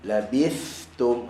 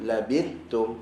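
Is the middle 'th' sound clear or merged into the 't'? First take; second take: clear; merged. First: The 'th' sound is clearly pronounced before the 't'. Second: The 'th' sound is merged into the 't'. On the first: The speaker calls it right. "nampak beza antara uh, dua" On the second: The speaker calls it wrong. "kalau kita tak jaga sa tu betul-betul ... kan nampak dia tak keluar"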